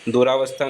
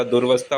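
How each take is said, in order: First: दुरावस्था as "du-raa-vastha"; long aa after r in दुरावस्था; wrong extra vowel. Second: दुर्वस्था as "dur-vastha"; r straight into v in दुर्वस्था; corrected short form. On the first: Teacher showing the error, दुरावस्था with "raa". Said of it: "दुरावस्था नहीं होता". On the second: Teacher correcting it, दुर्वस्था with no vowel after r. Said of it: "दुर्वस्था होता है". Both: Shown as a demonstration.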